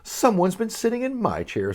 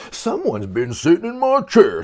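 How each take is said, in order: First: Mama bear, a bit higher and softer; a medium, motherly bear; mama bear notices her chair, middle voice; middle-sized voice. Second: Big gruff bear voice; papa bear finds his chair used, gruff. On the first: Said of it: "with a middle-sized voice". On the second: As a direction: growl it like the great big bear. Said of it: "in a great big gruff voice". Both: Acted.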